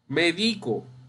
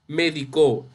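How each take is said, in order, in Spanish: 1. La tónica está en la segunda sílaba. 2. La tónica está en la tercera sílaba. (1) "esta palabra puede ser grave o llana" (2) "cuando es aguda, me refiero a medicó"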